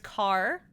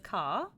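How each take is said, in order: First: The word is said with an American accent. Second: The word is said with a British accent. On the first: "Car is the American accent" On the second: "which is British"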